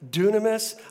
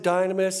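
First: The first syllable sounds like 'doo'. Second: The first syllable sounds like 'die'. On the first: This is the actual original pronunciation. The speaker calls it right. "it's actually pronounced dunamis" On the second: This is the common everyday pronunciation. The speaker calls it wrong. "We pronounce it dynamis"

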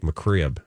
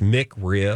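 First: The word is said quickly and run together. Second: The word is said slowly and carefully.

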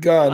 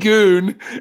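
First: The vowel is a short u sound. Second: The vowel is a long oo sound. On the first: The speaker calls it right. "instead of gun" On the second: The speaker calls it wrong. "You still say goon"

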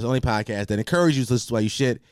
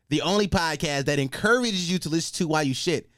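First: The words are run together and not enunciated. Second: Each word is clearly and carefully enunciated.

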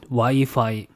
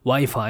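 First: It is pronounced in a Japanese way. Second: It is pronounced in an English way. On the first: "Wi-Fi in Japanese" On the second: "Wi-Fi in English"

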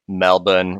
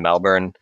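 First: The r is silent, in the Australian way. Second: The r is clearly sounded. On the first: "I can't bring myself to say Melbourne" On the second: "I'm just going to pronounce the R"

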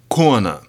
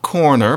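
First: The R sounds at syllable ends are dropped. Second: The R sounds at syllable ends are pronounced. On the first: "you tended to leave the R's off at the end of syllables" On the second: "not corner"

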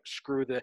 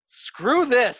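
First: It is said in an offhand, dismissive way. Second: It is said with force and conviction.

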